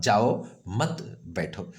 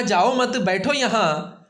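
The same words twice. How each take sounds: First: Slow "जाओ", a clear pause, then "मत बैठो"; very slow, जाओ on its own, pause before मत; listener's phrasing. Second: "जाओ मत" high as one group, then "बैठो यहाँ"; raised, slow delivery with जाओ joined to मत; high-pitched, मत attached to जाओ, then बैठो यहाँ; speaker's phrasing. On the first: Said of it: "मैंने सुना". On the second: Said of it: "वक्ता ने यहाँ पर रुकने के लिए कहा". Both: Shown as a demonstration.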